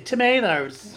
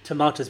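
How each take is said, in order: First: It is said with an American accent. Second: It is said with a British, non-American accent. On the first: "speaks with an American accent. he would say tomatoes" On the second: "I don't actually because I'm not American. So I would say tomatoes"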